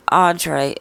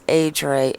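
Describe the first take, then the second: First: Audrey opening on an "aw" vowel; wrong name pronunciation. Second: Adre opening on a long "ay" vowel; corrected name pronunciation. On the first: Host reading out the name viewer says is wrong, mispronounced. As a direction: say Audrey with a broad first vowel. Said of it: "And it's not Audrey". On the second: Host reading out viewer's correction, right pronunciation. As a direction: say Adre as AY-dray. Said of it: "it's Adre". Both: Shown as a demonstration.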